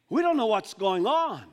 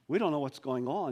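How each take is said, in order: First: Bewildered disciples. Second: Said in the usual way. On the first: Acted. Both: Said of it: "I can almost hear this now".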